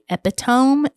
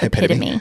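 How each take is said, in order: First: The word is pronounced the way it is spelled. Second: The word is pronounced the standard way. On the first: The speaker calls it wrong. "I did say epitome" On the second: The speaker calls it right. "instead of epitome"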